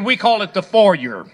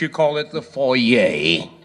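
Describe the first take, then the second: First: It is said the Texan way. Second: It is said the French way.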